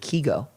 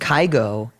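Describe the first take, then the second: First: The name is said the Norwegian way. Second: The name is said the English way.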